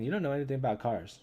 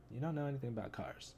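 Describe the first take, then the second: First: Said in the usual way. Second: Much softer mutter to himself; quiet repeat. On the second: Shown as a demonstration. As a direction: say it again under your breath. Repeats comic line twice.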